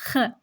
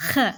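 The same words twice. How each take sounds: First: A slightly harder "ख" with more friction in the throat. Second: A gentle, light "ख" with little friction; soft kh. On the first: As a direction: push a bit more grit into "ख". (थोड़ा सख़्त "ख") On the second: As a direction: breathe out a soft "ख". (हल्का नरम "ख") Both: Shown as a demonstration. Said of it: "soft और थोड़ा हार्ड".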